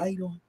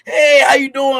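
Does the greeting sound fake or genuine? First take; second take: fake; genuine. First: It sounds fake and dismissive. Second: It sounds warm and genuine.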